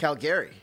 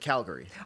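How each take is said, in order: First: The stress is on the last syllable. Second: The stress is on the first syllable. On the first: "He puts the emphasis on the back" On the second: "instead of Calgary"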